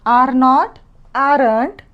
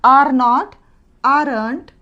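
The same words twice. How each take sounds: The two takes are said the same way.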